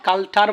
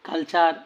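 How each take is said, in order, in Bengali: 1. মাঝের ব্যঞ্জনটি সাধারণ 't' ধ্বনি। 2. মাঝের ব্যঞ্জনটি 'ch' ধ্বনি। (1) "কালটার বললে ভুল হবে" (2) "প্রনাউন্সিয়েশনটা হয় চার।"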